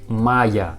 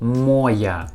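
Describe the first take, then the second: First: The first vowel is not a full O. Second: The first vowel is a full O sound. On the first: The speaker calls it right. "We pronounce like моя" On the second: The speaker calls it wrong. "this word written with word with letter O. Моя, моя, but it isn't correctly"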